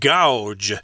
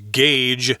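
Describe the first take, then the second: First: The vowel sounds like 'ow' in 'cow'. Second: The vowel sounds like 'ay' in 'day'. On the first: The speaker calls it wrong. "the spelling kind of suggests that you should pronounce it gouge, which is weird" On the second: The speaker calls it right. "the correct pronunciation is gauge"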